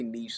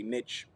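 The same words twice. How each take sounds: First: "niche" with a long ee and soft sh, neesh. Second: "niche" with a short i and a tch ending; niche as "nitch". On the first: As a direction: say "niche" to rhyme with leash. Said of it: "I say niche, some people say". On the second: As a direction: say "niche" to rhyme with pitch. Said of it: "some people say niche". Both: Shown as a demonstration.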